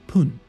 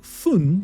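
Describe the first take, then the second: First: The word begins with a p sound. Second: The word begins with an f sound. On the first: "is being read as pun" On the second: "the kanji for minute"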